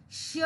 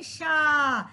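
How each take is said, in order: First: श pushed out short with a strong initial hiss; forceful श. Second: शा eased out slowly with a long open vowel; gently drawn-out शा. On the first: Teacher contrasts two letters for children, श said with force. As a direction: put extra force on the consonant of श. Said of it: "श पर ज्यादा जोर लगाना पड़ता है". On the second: Teacher contrasts two letters for children, शा said slow and easy. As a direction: say शा slowly, letting the vowel stretch. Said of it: "शा को धीरे से बोलना पड़ता है". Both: Shown as a demonstration.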